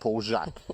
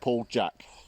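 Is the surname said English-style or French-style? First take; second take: French-style; English-style. First: The surname sounds like French 'zhahk'. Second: The surname sounds like English 'jack'. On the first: "I'm saying Paul Jacques" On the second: "you're saying Paul Jack"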